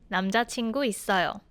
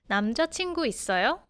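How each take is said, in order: First: The voice falls at the end. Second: The voice rises at the end.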